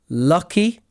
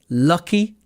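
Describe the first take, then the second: No difference in how they are said.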